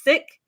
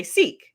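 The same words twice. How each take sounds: First: "Sikh" with a short i, like sick; Punjabi pronunciation. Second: "Sikh" with a long ee, like seek; anglicized pronunciation. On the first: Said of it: "the way to pronounce that word". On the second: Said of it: "if you speak in English". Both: Shown as a demonstration.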